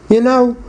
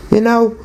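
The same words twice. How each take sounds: The two takes are said the same way.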